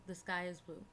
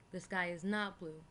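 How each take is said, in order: First: Said in the usual way. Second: Slow, with "not" pressed down and falling; stress on not. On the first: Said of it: "For example". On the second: Shown as a demonstration. Reading the negative example to the class, stressing "not". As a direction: lean on "not" to show the negative. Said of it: "express something that is not".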